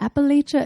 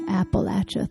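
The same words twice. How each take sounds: First: It has the non-Southern pronunciation. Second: It has the Southern pronunciation.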